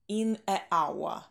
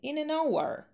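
First: Two vowels meet with no consonant before 'hour'. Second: An n sound links the article to 'hour'. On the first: The speaker calls it wrong. "Потому что произносить неудобно, когда на стыке гласные две" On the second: The speaker calls it right. "вот не хватает для благозвучия согласной"

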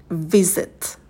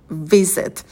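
Both takes have the same delivery.

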